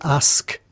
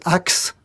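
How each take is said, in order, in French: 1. Le mot se termine par un son 'sk'. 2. Le mot se termine par un son 'ks'. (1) "pour dire demander quelque chose, on dit ask" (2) "les pirates, ils disent axe au lieu de ask"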